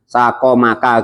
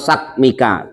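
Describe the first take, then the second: First: An a vowel is heard between q and m. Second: No vowel is heard between q and m. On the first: "dengan fathah keduanya" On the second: "dengan domah dan sukun"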